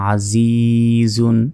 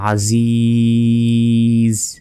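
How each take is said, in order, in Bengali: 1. শব্দটি শেষ হয় -un অক্ষর দিয়ে। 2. শব্দটি শেষে কোনো স্বরধ্বনি ছাড়া একটি ব্যঞ্জনে থেমে যায়।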